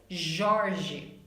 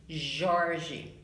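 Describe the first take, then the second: The two takes are said the same way.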